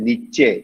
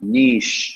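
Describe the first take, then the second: First: It has two syllables, ending in 'chay'. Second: It is one syllable with a long vowel. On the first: The speaker calls it wrong. "சில சொல்லுவாங்க நிச்சே, தப்பு" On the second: The speaker calls it right. "நீட்டி சொல்லணும்"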